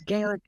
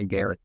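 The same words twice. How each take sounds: First: "Gaelic" opening on a clear "gay" sound; Gaelic as GAY-lik. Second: "Gaelic" with a short first vowel, GAL-ik; Gaelic, alternative pronunciation. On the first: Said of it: "I wanna say Gaelic". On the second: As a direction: say "Gaelic" as GAL-ik, not GAY-lik. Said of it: "I don't think that's it". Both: Shown as a demonstration.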